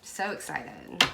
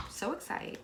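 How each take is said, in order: First: Said in the usual way. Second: Soft whispered repeat of So excited; a whispered echo of So excited. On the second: Shown as a demonstration. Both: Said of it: "I'm so excited".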